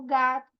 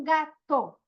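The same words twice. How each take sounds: First: Said in the usual way. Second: "gato" com o "to" final separado; final da palavra destacado. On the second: Shown as a demonstration. ("gato" dito em duas partes, destacando "to") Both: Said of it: "Rima sempre vai ser o final".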